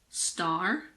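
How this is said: It is said in an American accent. "In American English"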